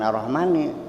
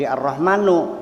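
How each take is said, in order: First: The word ends with an 'i' vowel. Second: The word ends with a 'u' vowel. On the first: The word still attaches to the word before the break. The speaker calls it wrong. "Jangan Ar-Rahmani" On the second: The recitation restarts after a break as a new clause. The speaker calls it right. "Jadi Ar-Rahmanu gitu"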